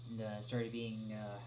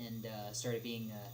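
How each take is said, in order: Both takes have the same delivery.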